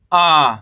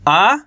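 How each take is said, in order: First: Long आ with a falling tune; held, dropping आ; long vowel. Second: Short आ with a rising tune; don't draw out the आ; brief, lifting आ; short vowel. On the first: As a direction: stretch the आ. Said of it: "खींच के पढ़ेंगे". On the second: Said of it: "कम खींच के पढ़ेंगे". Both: Shown as a demonstration.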